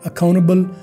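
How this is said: It is said with an American accent, t dropped. "American में कहेंगे"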